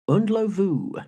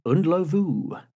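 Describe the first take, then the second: First: The surname ends with the sound 'lovu'. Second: The surname ends with the sound 'lovu'.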